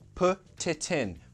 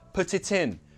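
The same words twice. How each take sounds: First: The phrase is said at a slower pace. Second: The phrase is said at a faster pace.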